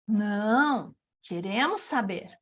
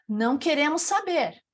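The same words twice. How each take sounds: First: There is a pause right after 'não'. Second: It runs on with no pause after 'não'. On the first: We do want to know. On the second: We do not want to know.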